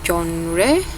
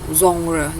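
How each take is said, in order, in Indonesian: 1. Diucapkan dengan pengucapan Inggris. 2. Diucapkan dengan pengucapan Prancis yang sengau. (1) "Kalau dalam bahasa Inggris bacanya genre" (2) "Bahasa Prancis dia lebih aneh lagi cara pengucapannya"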